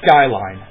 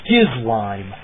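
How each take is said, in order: First: It starts with sky and ends with line. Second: It starts with skiz and ends with lime. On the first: This is how the name looks like it should sound. "that's what I think it's supposed to be" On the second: This is how the name is actually spelled. "that's what it actually is"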